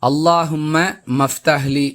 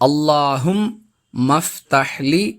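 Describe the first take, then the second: First: An extra 'ma' syllable is inserted before 'ftahli'. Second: The 'ma' links straight into 'ftahli' once. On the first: The speaker calls it wrong. "சிலர் இந்த துஆவை தவறாக உச்சரிக்கக்கூடிய" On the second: The speaker calls it right. "இதன் சரியான உச்சரிப்பு"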